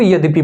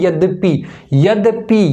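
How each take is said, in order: First: Said in the usual way. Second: यद्यपि sounded out syllable by syllable; carefully articulated यद्यपि, each part clear; pronunciation demo. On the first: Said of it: "इसको यद्यपि बोलते हैं". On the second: Shown as a demonstration. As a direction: say यद्यपि distinctly as yad-dya-pi for students. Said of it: "जब तुम इसको बोलोगे ना".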